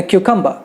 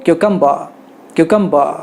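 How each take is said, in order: First: Cucumber ending in half an h, no r; British cucumber. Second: Cucumber with a throaty final r; American cucumber. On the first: Teacher showing students the UK ending, no r. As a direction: let the end of cucumber fade to a breathy uh. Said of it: "उसके जगह पे आधा ह कहते हैं". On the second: Teacher showing students the US ending, throaty r. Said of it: "US वाले कहेंगे". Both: Shown as a demonstration.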